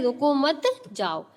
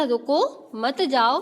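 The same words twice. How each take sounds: First: "रुको मत" joined, a break, then "जाओ"; pause after मत. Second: "रुको", clear break, then "मत जाओ" joined; pause after रुको. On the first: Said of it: "और दूसरा क्या है". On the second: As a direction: stop firmly on रुको before a joined मत जाओ. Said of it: "पहला क्या था". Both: Shown as a demonstration.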